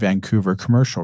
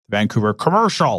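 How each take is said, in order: First: Commercial has a small, subtle emphasis. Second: Commercial is said loudly with heavy emphasis. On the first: "Very, very small, subtle emphasis" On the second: "I'm always putting that emphasis on the word commercial"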